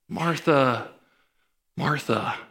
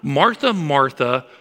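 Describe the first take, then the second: First: The name is said in a soft, tender tone. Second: The name is said in an annoyed, harsh tone. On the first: The speaker cares about her. The speaker calls it right. "it communicates an emotional tenderness" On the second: The speaker is frustrated with her. The speaker calls it wrong. "It's not, Martha, Martha, what is your problem?"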